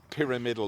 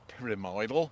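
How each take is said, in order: First: The stress is on the first syllable. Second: The stress is on the second syllable. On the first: The speaker calls it right. "you don't say the, the pyramids in Egypt, do you? It's a pyramidal orchid" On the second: The speaker calls it wrong. "Some people say pyramidal"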